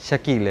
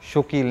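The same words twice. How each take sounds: First: The name has a standard pronunciation. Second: The name has a Bengali-style pronunciation. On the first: The name is said properly. The speaker calls it right. "बल्कि क्या है, शकील है" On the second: The name is mispronounced. The speaker calls it wrong. "मेरा नाम शकील नहीं"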